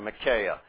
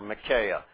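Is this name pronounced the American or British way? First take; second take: American; American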